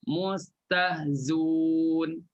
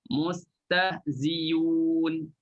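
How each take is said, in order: First: The glottal sound is dropped entirely. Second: A y sound replaces the glottal sound. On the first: "buangkan Hamzah" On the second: "tukarkan Hamzah menjadi huruf Ya"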